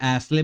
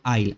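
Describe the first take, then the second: First: The s is pronounced, like ass-lee. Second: The s is silent, like isle. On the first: The speaker calls it wrong. "हम लोग इसको एसले भी बोल सकते हैं" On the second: The speaker calls it right. "इसका correct pronunciation होता है आइल"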